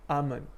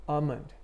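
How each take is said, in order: Both takes have the same delivery.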